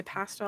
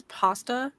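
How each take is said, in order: First: "pasta" with a short a, as in cat; own regional pronunciation. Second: "pasta" with an open ah, "pahsta"; posh pronunciation. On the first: Speaker admitting they're teased for it, "pasta" with a short a. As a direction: say "pasta" with a flat "a" as in "past". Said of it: "I get made fun of my pasta". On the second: Speaker quoting others' posh way, "pasta" with a long ah. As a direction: say "pasta" as "pah-stuh". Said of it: "we would think is posh here". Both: Shown as a demonstration.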